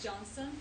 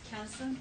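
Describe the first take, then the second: First: The name begins with a J sound. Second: The name begins with a hard K sound. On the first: The speaker calls it right. "in Turkish we pronounce C as J" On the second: The speaker calls it wrong. "you can maybe like now thinking that it's not Johnson, it's Kenson. No"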